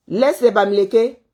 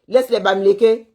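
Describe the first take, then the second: No difference in how they are said.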